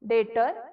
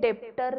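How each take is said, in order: First: No sound is heard before the t. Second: A p-like sound is heard before the t. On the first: The speaker calls it right. "बी कुठेही येत नाही ह्याच्यामध्ये" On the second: The speaker calls it wrong. "डेप्टर नाही"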